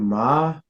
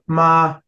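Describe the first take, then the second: First: The pitch rises from low. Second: The pitch stays high and level. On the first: "low rising tone" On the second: "high neutral tone"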